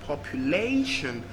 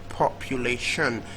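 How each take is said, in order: First: The stress is on the third syllable. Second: The stress is on the last syllable. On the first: "third syllable" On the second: "last syllable"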